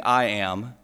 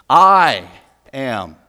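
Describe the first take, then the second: First: Said in the usual way. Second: Loud, emphatic I, pause, lower am; stress on I. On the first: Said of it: "Jesus is quoting God". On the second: Shown as a demonstration. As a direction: punch "I" hard, then drop on "am". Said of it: "including the unnecessary pronoun".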